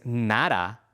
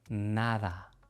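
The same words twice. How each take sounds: First: The d is a hard, stopped sound. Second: The d is a soft, breathy sound. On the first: The speaker calls it wrong. "no es nada con la D del inglés" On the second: The speaker calls it right. "el sonido es más suave"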